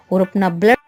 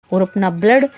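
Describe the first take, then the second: No difference in how they are said.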